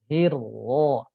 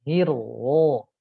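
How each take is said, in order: No difference in how they are said.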